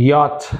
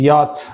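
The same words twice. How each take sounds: The two takes are said the same way.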